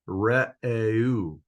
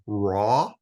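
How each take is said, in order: First: Each vowel is said as a separate sound. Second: The vowels are blended into one sound. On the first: The speaker calls it right. "if you pronounce every separate vowel separately, then you got re'eu. And that is pretty close to the Hebrew" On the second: The speaker calls it wrong. "how would you pronounce that? E U, uh, raw, something like that"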